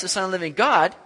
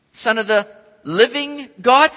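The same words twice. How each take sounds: First: Said in the usual way. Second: Son of the living God, louder and slower, rising on God; incredulous emphasis. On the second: Retold or imitated. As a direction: lean on it in disbelief. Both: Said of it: "He's thinking".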